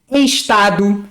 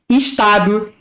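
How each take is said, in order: First: Estado said "eshtado", with an open e at the start. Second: Estado said "ishtado", with i at the start; Rio pronunciation. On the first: Teacher showing how other regions say estado. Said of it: "que as pessoas falam". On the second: Teacher showing the Rio way to say estado. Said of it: "a gente fala". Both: Shown as a demonstration.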